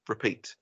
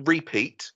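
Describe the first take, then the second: First: "repeat" as ruh-PEAT, falling; weak first syllable in "repeat", said lower; correct pronunciation. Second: "repeat" as REE-peat; wrong pronunciation. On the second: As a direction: stretch and stress the ree in "repeat". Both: Shown as a demonstration. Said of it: "not repeat".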